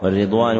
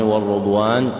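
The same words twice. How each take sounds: First: والرضوان read as "war-ridwan", "i" after the r; kasra on راء. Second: والرضوان read as "war-rudwan", "u" after the r; damma on راء. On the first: Teacher repeats the first valid reading, والرضوان as "war-ridwan". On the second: Teacher repeats the second valid reading, والرضوان as "war-rudwan". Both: Shown as a demonstration. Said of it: "بكسر الراء وضمها".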